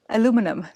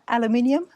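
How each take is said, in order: First: It is said with four syllables, ending -inum. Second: It is said with five syllables, ending -inium. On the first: This is how Americans say it. "I'm becoming American" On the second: This is how it is said back home. "That's that, that back home with"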